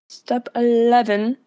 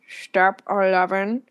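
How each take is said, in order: First: It is said in her normal voice. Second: It is said in a Snape impression.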